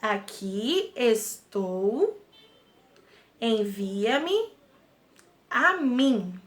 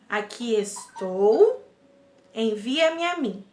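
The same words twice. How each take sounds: First: The phrase is spoken very slowly. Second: The phrase is spoken at a normal pace.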